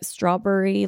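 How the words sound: The 'berry' part sounds like 'burry'. This is how the speaker's father says it. "my dad says burries, like strawberry"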